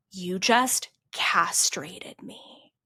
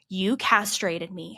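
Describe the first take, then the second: First: Slow, hissed whisper of barely held fury; retold angry whisper. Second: Said in the usual way. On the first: Coach's voice message, seething at a client in slow whispered anger. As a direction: whisper the accusation slowly, seething. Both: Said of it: "I get an angry voice message back".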